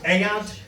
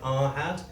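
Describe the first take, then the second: First: The h sound in the middle is dropped. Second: The h sound in the middle is pronounced. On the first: "in Keighley it's pronounced" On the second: "My teachers pronounced it"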